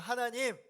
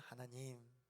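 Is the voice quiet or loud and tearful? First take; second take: loud and tearful; quiet. First: It is said louder, with a crying voice. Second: It is said in a quieter, calmer voice.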